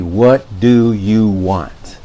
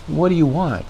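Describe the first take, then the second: First: Slow, drawn-out, fed-up statement; exasperated. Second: Light, soft curious question; simply ask, wanting to know. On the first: Demonstrating to viewers a statement of exasperation. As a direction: let the frustration weigh on each word. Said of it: "The statement of frustration or exasperation". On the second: Demonstrating the question reading, curious. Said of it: "The question would be". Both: Shown as a demonstration.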